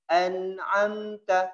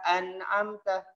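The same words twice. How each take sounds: First: The n sound resonates through the nose. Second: The n sound is held in the mouth. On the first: The speaker calls it right. "dimasukkan ke hidung sedikit" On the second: The speaker calls it wrong. "tidak boleh an'amta, an'amta di mulut"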